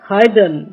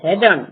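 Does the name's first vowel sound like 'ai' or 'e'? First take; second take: ai; e. First: The first vowel sounds like 'ai'. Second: The first vowel sounds like 'e'. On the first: The speaker calls it right. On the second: The speaker calls it wrong.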